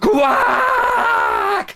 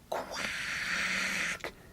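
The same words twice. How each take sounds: First: It is said very loudly. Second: It is said very quietly.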